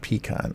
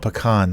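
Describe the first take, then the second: First: Pecan is said with a non-Texan pronunciation. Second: Pecan is said with the Texan pronunciation. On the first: The speaker calls it wrong. "not pecan" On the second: The speaker calls it right. "In Texas, pecan is pronounced pe- pecan"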